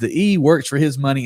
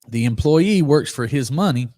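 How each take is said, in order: First: It is said at a normal, quicker pace. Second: It is said slowly and deliberately.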